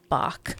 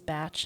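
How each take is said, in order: First: The name ends with a 'k' sound. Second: The name ends with a 'ch' sound. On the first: The speaker calls it wrong. "not Bach" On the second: The speaker calls it right. "it is Batch"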